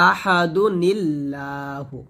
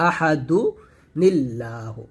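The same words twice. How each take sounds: First: আহাদু নিল্লাহু drawn out very slowly, nun joined to lam; slow chanted tajweed recitation of আহাদু নিল্লাহু; Quranic recitation demo. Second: আহাদু নিল্লাহু said briskly, barely chanted; light recap of আহাদু নিল্লাহু; quick repeat of recitation. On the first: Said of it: "যেমন". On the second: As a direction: rattle off আহাদু নিল্লাহু at near-normal speed. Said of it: "এটাই হচ্ছে পড়ার নিয়ম". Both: Shown as a demonstration.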